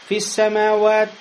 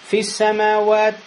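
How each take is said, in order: No difference in how they are said.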